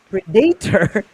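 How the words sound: The word is said with a Filipino pronunciation. "Predator is Filipino"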